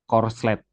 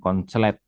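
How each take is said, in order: First: It has an r before the s. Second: It has an n before the s. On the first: This is the proper form of the term. The speaker calls it right. "kalau dibaca itu sebenarnya korslet" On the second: This is the popular everyday form. The speaker calls it wrong. "bukan konslet ya"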